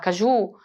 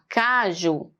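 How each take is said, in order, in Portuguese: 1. A tônica está na segunda sílaba. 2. A tônica está na primeira sílaba. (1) "O ju é mais forte? Não é, né? Fica estranho falar caju" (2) "É o K. Caju. Ele é o mais forte"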